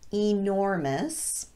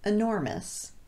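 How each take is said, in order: First: The first vowel is a long E. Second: The first vowel is a schwa. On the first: "some native speakers pronounce this word as" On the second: "using the schwa vowel instead of the long E"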